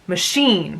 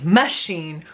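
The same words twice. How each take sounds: First: The stress falls in its usual natural place. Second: The stress is shifted to an unusual syllable. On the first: The speaker calls it right. "we say machine" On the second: The speaker calls it wrong. "we don't say machine"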